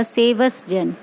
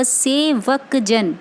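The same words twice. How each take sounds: First: सेवस with an s ending; the pupils' mistake सेवस जन; wrong pronunciation. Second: Slow सेवक जन with a clear क; correct pronunciation. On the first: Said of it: "व सेवस जन नहीं है". (ग़लत उच्चारण सेवस जन) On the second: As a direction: drag out सेवक जन carefully. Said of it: "ये जो आपका वर्ड है". (धीरे, साफ़ क वाला सेवक जन) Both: Shown as a demonstration.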